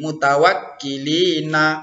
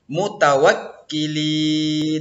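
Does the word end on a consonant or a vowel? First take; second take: vowel; consonant. First: The word ends with an added na vowel. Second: The word ends on a bare n sound. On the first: The reader runs on into the next verse. The speaker calls it wrong. "Nah itu salah" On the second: The reader stops at the end of the verse. The speaker calls it right. "maka nunnya dimatikan"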